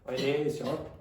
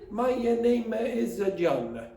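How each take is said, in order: First: Sounds at the ends of words are dropped. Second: An extra vowel sound follows each word. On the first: The speaker has a Spanish accent. "They take off sounds at the end" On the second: The speaker has an Italian accent. "if you do that, you'll sound Italian"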